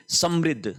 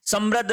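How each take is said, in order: First: समृद्ध said "sam-ridh", with ri; vowel i in the second syllable of समृद्ध; correct pronunciation model. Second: समृद्ध said "sam-radh", with ra; a vowel a in the second syllable of समृद्ध; wrong pronunciation demo. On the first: Teacher recapping the right word, समृद्ध as "samridh". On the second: Teacher recapping the error, समृद्ध as "samradh". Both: Shown as a demonstration. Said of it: "समृद्ध नहीं".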